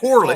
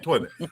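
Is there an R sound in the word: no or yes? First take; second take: yes; no. First: The word is said with an R sound. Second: The word is said with no R sound. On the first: The speaker calls it wrong. "not toilet" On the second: The speaker calls it right. "There ain't no fucking R in toilet"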